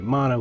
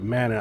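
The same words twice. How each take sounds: First: Mana is said with a Polynesian pronunciation. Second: Mana is said with an English pronunciation. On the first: This is how Polynesian speakers say it. "I'm going to say Mana because I'm Polynesian. We say Mana" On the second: This is how Polynesian speakers do not say it. "we don't say Mana"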